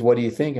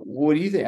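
First: Said in the usual way. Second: Tossing the question back in disbelief; stunned echo. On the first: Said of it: "She goes". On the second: Retold or imitated. Husband echoes wife's question back, mildly stunned. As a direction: repeat it, thrown and baffled. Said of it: "I go".

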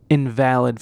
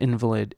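First: INVALID as in-VAL-id, stressed on the middle syllable; adjective invalid. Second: INVALID as IN-vuh-lid, stressed on the first syllable; noun invalid. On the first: Host contrasting heteronyms, invalid said in-VAL-id. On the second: Host contrasting heteronyms, invalid said IN-vuh-lid. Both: Shown as a demonstration. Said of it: "the heteronyms would be".

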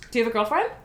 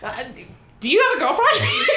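First: Said in the usual way. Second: High, giggly, flustered stammer; nervous stammer. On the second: Retold or imitated. Asking the hot guy with friend's words, nervous stammer. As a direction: stammer the question out in mock nerves.

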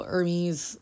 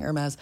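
First: Hermes with a long ee at the end; standard pronunciation. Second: Hermes with a short e at the end, air-MEZ; likely mispronunciation. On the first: Podcaster listing god names for pets, standard pronunciation. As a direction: say Hermes as HER-meez. Says name, then likely slip. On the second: Podcaster admitting her likely slip on the name, says Hermes as air-MEZ. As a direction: say Hermes like the fashion house, ending in MEZ. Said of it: "I would probably just end up saying". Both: Shown as a demonstration.

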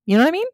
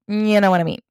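First: High questioning. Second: Said in the usual way. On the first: Acted. Asking listeners, rising.

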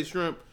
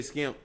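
First: Said in the usual way. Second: "skimp" with a hard sk and no r; dialect pronunciation. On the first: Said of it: "I say shrimp". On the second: Retold or imitated. Speaker showing how they say shrimp, dialect pronunciation. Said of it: "they say skimp".

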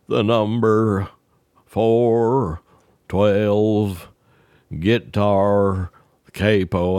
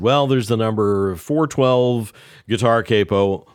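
First: Each word spaced out with pauses; slow repeat. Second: Said in the usual way. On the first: Retold or imitated. Ned repeating the order slowly for Earl. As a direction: spell out "four twelve guitar capo" word by word, very slow.

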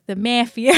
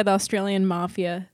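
First: Mock Aussie accent with a flattened "mafia"; Australian accent. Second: Said in the usual way. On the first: Shown as a demonstration. Host redoes the slipped-in joke on request, Australian accent. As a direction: say "mafia" as MAF-ia, Aussie-style, amused. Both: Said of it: "Oh, do the accent".

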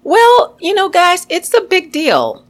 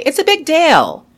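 First: Bright high-pitched big deal, raised well above her voice; high upbeat delivery. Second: Imitating a British accent on "it's a big deal", stress on "big". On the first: Shown as a demonstration. Telling podcast listeners about foreign accents, high upbeat voice. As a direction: pitch it way up, excited. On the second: Podcast host mimics the British saying it, mock British accent. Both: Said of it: "Or as the British would say".

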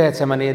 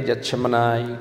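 First: Said in the usual way. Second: Getsemaní attempted the Hebrew way, like "yat-shemanai"; practised Hebrew pronunciation. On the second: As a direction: try Getsemaní as a careful learner of Hebrew. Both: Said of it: "mejorando mi pronunciación de las palabras hebreas".

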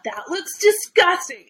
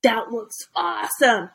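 First: Higher-pitched mock disgust on DISGUSTING; disgusted kids. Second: Put-on impressed kids. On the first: Host mimics kids reacting to food videos, disgusted kids. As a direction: imitate a kid grossed out, pitched up. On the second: Host mimics kids reacting to food videos, impressed kids. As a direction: imitate a kid impressed by "awesome". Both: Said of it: "the kids are like".

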